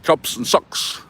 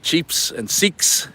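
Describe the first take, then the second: First: The vowels are said in a New Zealand accent. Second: The vowels are said in an Australian accent. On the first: "They say" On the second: "I have an Australian accent. I say"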